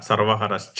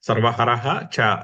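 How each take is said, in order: First: The words join with an sh sound before ca. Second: The visarga h is sounded before a separate ca.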